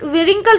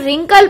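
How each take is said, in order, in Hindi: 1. 'w' की ध्वनि शुरुआत में बोली जाती है। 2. शब्द सीधे 'r' की ध्वनि से शुरू होता है। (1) "विरिंकल तो नहीं पढ़ा ना" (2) "रिंकल पढ़ा है"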